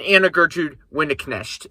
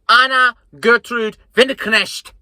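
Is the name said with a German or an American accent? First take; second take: American; German. First: The name is said with American pronunciation. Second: The name is said with German pronunciation.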